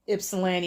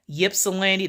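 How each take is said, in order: First: The word begins with a plain vowel sound. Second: The word begins with a clear Y sound.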